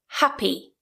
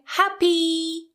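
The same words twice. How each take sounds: First: The final vowel is kept short. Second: The final vowel is held long. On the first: The speaker calls it right. "it's just shorter" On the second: The speaker calls it wrong. "instead of saying happy"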